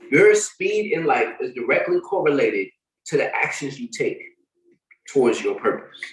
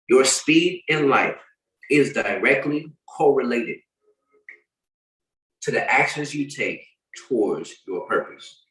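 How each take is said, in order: First: It is read rather quickly. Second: It is read more slowly.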